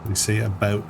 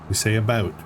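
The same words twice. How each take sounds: The two takes are said the same way.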